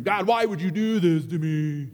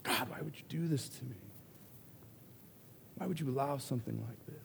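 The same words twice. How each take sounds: First: Loud, whining complaint to God; whiny man child. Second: Put-on whiny man child. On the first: Retold or imitated. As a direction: whine it like a big baby. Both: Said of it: "I sound like a big baby".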